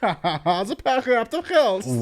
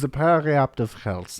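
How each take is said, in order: First: It is said in a put-on German-like accent. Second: It is said in the speaker's ordinary accent.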